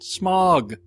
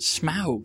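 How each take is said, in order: First: The vowel is an 'aw' sound. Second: The vowel is an 'ow' sound. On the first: "it's almost always an aw sound" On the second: "everybody in this movie pronounces it smaug"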